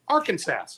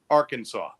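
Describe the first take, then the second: First: The last syllable sounds like 'sass'. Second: The last syllable sounds like 'saw'. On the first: The speaker calls it wrong. "The last two letters, S A S, SAS ... if I said it that way, I could go to jail" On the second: The speaker calls it right. "It is illegal to mispronounce the name of the state"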